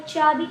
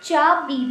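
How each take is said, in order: First: Said in the usual way. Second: चा बी split into two separate stressed syllables. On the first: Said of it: "पहले च की sound आई". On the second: Shown as a demonstration. Teacher sounding out चा बी for students, syllable by syllable. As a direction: say चा, pause, then बी, a bit louder. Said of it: "last में ई आ रही है".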